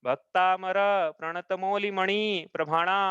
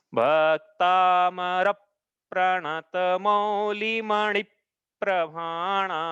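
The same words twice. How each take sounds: First: Bhaktamar प्रणत मौलि मणि प्रभाणा with syllables less drawn out; incorrect verse reading. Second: Bhaktamar प्रणत मौलि मणि प्रभाणा very slow, every long vowel held; correct verse reading. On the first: Teacher showing how not to read the verse, shorter syllables. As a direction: move through Bhaktamar and the rest without long holds. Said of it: "ऐसा नहीं पढ़ना है". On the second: Teacher showing how the verse is read, long drawn syllables. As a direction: draw out Bhaktamar and each following word like a chant. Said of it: "ऐसा पढ़ना है". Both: Shown as a demonstration.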